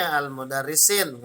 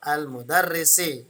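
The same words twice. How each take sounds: First: Al mudarrisin with an added final n; wrong tanwin. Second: Al mudarrisi ending on a clean -i; correct, no tanwin. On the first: Teacher shows students the forbidden form, wrong tanwin. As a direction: say al mudarrisin, ending in -in. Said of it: "Nggak boleh". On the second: Teacher models the allowed form, no tanwin. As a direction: say al mudarrisi without final n. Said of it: "Nggak boleh al mudarrisin". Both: Shown as a demonstration.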